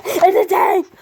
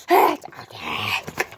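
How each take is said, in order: First: High, loud excited cry. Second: Very low and slow; deep slow voice. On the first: Real, not acted. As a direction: announce it with a thrill. Excited toy reveal. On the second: Acted. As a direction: drag it out deep like a monster.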